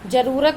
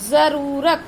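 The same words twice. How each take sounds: First: The word begins with a j sound. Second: The word begins with a z sound. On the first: The speaker calls it wrong. "जरूरत नहीं बोलते" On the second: The speaker calls it right. "ज जेड से"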